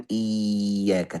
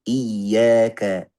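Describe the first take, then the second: First: Slow iyyaka with the ka too light; wrong iyyaka. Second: Very slow iyyaka, firm doubled ya; correct iyyaka. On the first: Teacher slowly shows the wrong reading. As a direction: iyyaka without a firm ka. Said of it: "jangan iyyaka". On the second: Teacher slowly shows the right reading. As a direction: iyyaka with full shaddah. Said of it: "tapi iyyaka". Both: Shown as a demonstration.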